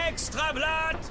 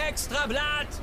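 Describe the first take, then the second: Both takes have the same delivery.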